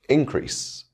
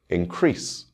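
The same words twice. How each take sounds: First: The stress is on the first syllable. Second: The stress is on the second syllable. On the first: It is used as a noun. "This is a noun, and the stress will fall on the first syllable" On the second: It is used as a verb. "This is a verb, and the stress will fall on the second syllable"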